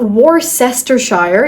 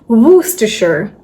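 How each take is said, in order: First: Every written syllable is sounded out in full. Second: Some written syllables are dropped and run together. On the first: The speaker calls it wrong. "this is not Worcestershire" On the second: The speaker calls it right. "it's Worcestershire"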